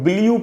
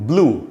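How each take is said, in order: First: A full vowel separates the b from the l. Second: The b runs straight into the l sound. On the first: The speaker calls it wrong. "इसको कई बार लोग ब्लू पढ़ लेते हैं, ब्लू नहीं पढ़ना है" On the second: The speaker calls it right. "आधा ब और लू"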